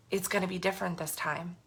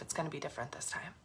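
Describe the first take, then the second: First: Said in the usual way. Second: Soft, fast vow under the breath; quiet self-promise; quiet promise to herself. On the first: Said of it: "when I said". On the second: Real, not acted. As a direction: murmur it to yourself as a private promise. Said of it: "making a promise to myself".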